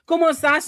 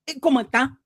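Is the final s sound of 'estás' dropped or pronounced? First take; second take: pronounced; dropped. First: The final s sound is clearly pronounced. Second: The final s sound is dropped entirely.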